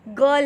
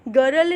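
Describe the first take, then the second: First: गर्ल said as gal, with the r silent; गर्ल with a silent r, no r sound at all; correct way. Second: गर्ल said with the r sounded, like gə-rəl; गर्ल with an audible rolled r in the middle; wrong way. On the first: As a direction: drop the r in गर्ल and say a plain gal. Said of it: "ये आर silent है". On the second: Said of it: "गर्ल नहीं है ये". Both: Shown as a demonstration.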